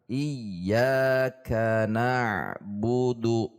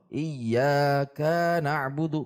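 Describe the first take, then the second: First: Every syllable is level, with no push. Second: The syllable ka is pushed up and lengthened. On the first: The speaker calls it right. "harusnya datar. ... datar" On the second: The speaker calls it wrong. "jika menekan, ... ka-nya menjadi panjang"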